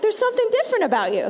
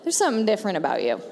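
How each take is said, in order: First: It sounds warm and admiring, like praise. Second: It sounds mocking, like a put-down. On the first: The person looks better than before. The speaker calls it right. "Say it like" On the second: The person seems odd in a bad way. The speaker calls it wrong. "now don't say it like"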